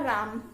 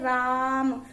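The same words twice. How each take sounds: First: The 'aa' vowel is said at normal length. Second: The 'aa' vowel is stretched out very long. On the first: "राम किस प्रकार से बोला?" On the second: "यदि हम इसको लंबा खींच के बोले तो बोलेंगे"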